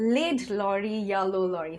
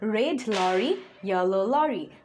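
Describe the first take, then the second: First: Red is said with an l instead of r. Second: Both red and lorry keep a clear r sound. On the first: The speaker calls it wrong. "অথবা" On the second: The speaker calls it right. "প্রোনাউন্সিয়েশনটা যেন ঠিক হয়"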